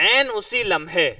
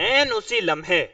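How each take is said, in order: The two takes are said the same way.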